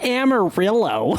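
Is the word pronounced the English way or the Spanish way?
English. It is said with an English, Texan pronunciation. The speaker calls it wrong. "It's not Amarillo"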